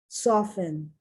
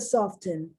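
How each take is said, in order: First: The T sound is silent. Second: The T sound is pronounced. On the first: The speaker calls it right. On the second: The speaker calls it wrong.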